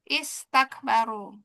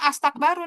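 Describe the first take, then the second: First: The word begins with an i vowel. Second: The word begins with an a vowel. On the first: The speaker calls it right. "intinya adalah kasroh" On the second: The speaker calls it wrong. "harusnya astakbaru nih. Tapi nggak boleh A"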